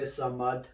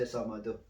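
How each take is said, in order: First: Samad ending on D with no vowel; stopped ending. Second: Samadu with a "u" after the D; final U sounded. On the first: Teacher showing the stop, "Samad" without final u. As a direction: finish "Samad" on the consonant d. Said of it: "When you stop, you say Samad". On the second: Teacher showing what not to say, "Samadu" with final u. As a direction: add the open u to the end of "Samadu". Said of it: "You don't say Samadu". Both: Shown as a demonstration.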